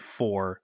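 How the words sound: The vowel is a full rounded 'or' sound. "we do not say for"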